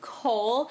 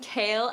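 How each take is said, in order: First: The name sounds like 'coal', one vowel sound. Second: The name sounds like 'kale', two vowel sounds. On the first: The speaker calls it wrong. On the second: The speaker calls it right.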